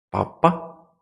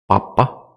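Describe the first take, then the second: First: "Papá" said with the stress on the final á, pa-PÁ; papá, stress on the last syllable. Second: "papa" said with the stress on the first syllable, PA-pa. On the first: Teacher showing students the stressed final á in "Papá". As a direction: land on the end of "Papá", pa-PÁ. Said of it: "por la sílaba tónica que o está o no está". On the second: Teacher contrasting "papa" with "papá" for students, stress on the first syllable. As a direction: lean on the start of "papa", PA-pa. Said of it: "porque si no fuera". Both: Shown as a demonstration.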